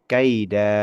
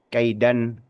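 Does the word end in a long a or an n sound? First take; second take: long a; n sound. First: The word ends with a long a. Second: The word ends with an n sound. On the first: The reader stops at this word. "kalau niatnya wakof di kata itu, maka kaidan berubah menjadi kaida" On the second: The reading continues without stopping. "Yang aslinya kalau kita baca secara secara umum"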